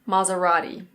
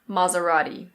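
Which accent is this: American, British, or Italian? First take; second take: American; American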